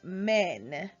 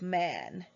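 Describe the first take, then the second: First: The vowel is an 'e' sound. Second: The vowel is an open 'a' sound. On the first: The speaker calls it wrong. "men instead of man" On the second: The speaker calls it right. "instead of man"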